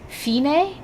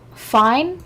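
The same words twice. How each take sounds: First: The name is said as the anime pronounces it. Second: The name is said in the speaker's own pronunciation.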